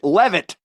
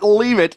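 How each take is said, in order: First: The first vowel is a short 'e' sound. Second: The first vowel is a long 'ee' sound. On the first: The speaker calls it right. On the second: The speaker calls it wrong. "Not leave it"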